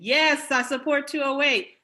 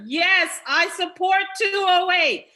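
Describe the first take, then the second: First: It is said at a normal speaking volume. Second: It is said more loudly than before. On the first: "I'll say it again" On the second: "Let me say it louder"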